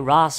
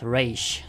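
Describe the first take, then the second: First: The name ends with an s sound. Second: The name ends with an sh sound. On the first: "I say Ra's al Ghul" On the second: "not Raish"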